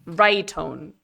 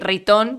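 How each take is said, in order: First: It is pronounced the English way, 'write on'. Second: It is pronounced the Spanish way, 'ree-ton'. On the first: "according to Wikipedia, it is write on" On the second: "that's the Spanish version"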